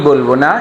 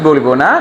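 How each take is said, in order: The two takes are said the same way.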